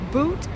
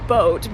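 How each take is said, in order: First: The vowel sounds like English 'boot'. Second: The vowel sounds like English 'boat'.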